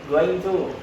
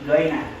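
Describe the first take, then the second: First: Both words are said fully and separately. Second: The words are run together and shortened.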